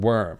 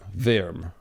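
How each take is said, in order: First: The word is said in a plain English accent. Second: The word is said in a German accent.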